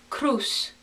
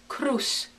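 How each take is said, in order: The two takes are said the same way.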